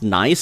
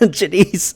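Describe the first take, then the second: First: It is one syllable with a silent G. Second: It is two syllables with a sounded G. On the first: "They're saying it's pronounced nice" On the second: "they should have spelled it not Janice"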